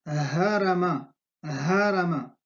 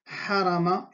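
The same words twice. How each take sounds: First: Harama with a light, open breath h; plain glottal h. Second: Harama with a tight, breathed ḥ from the throat; pharyngeal Arabic ḥ. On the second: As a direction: model harama with a constricted h. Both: Shown as a demonstration. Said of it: "Hay una diferencia entre ha y ha".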